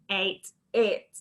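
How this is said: It is said in a robot voice. "Shall we robot it?"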